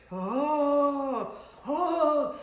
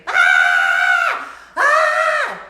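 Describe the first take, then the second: First: Hooted "oh" howl, mocking. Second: Full-force piercing "Ah!"; good scream. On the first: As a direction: moan like an ancient man or cartoon ghost. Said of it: "That sounds like a ninety-seven-year-old man". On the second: Shown as a demonstration. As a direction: let out a proper loud scream. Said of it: "like a good scream".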